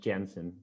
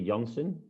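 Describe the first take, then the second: First: The name is pronounced the English way. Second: The name is pronounced the Dutch way. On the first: "in English, to be fair, it's uh, always pronounced Jansen" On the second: "in Dutch you will say Janssen"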